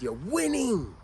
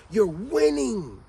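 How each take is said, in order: First: Said in the usual way. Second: "You're winning" drawn out slowly and pressed harder; slow emphatic repeat. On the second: Shown as a demonstration. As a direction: lean on "winning", spacing the words slowly. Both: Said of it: "Remember what I said?".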